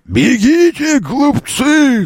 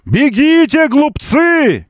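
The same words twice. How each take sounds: First: It is said as a Gandalf impression. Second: It is said in his normal voice.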